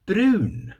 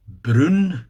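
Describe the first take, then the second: First: Brun sung out high, Swedish vowel. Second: Brun said louder with the Swedish u. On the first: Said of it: "What's that in Swedish?". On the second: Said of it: "you see a pattern here". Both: Shown as a demonstration.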